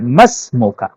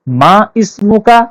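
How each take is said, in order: First: Ma is joined to smuka, dropping the i. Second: Ma and ismuka are said as separate words. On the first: "मीम और सीन को जोड़ देते हैं" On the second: "मां इस्मु का के बजाय"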